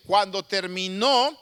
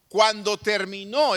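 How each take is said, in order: First: "cuando terminó" said slowly, stress on "terminó"; slow repeat for emphasis. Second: Drawn out slowly to hold attention; slow it right down, weigh "Cuando terminó"; slow emphatic. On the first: Preacher repeats "cuando terminó" slowly, stressing "terminó". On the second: Preacher stretching "Cuando terminó" slowly for suspense. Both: Shown as a demonstration. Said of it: "escúcheme bien".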